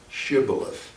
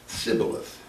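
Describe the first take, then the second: First: The word begins with a sh sound. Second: The word begins with an s sound.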